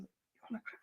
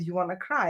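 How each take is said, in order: First: Asked much softer, almost breathed out; hushed question. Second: Said in the usual way. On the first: Retold or imitated. Mother coaxing her upset daughter, much softer. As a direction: drop right down, coaxing her gently.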